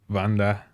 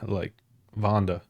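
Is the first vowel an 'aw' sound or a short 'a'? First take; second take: short a; aw sound. First: The first vowel is a short, hard 'a'. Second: The first vowel is an open 'aw' sound. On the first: The speaker calls it right. "it's a shorter A" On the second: The speaker calls it wrong. "Like I almost say A W with the way I pronounce it"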